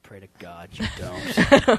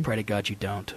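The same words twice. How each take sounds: First: Very low, dragged-out warning; slow ominous mock threat. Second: Very low, soft warning; low mock threat. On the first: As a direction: stretch each word out, deep and menacing in jest. Repeats mock threat, drawn out. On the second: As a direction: drop it deep and quiet, mock-ominous. Deadpan mock threat, then repeated slower.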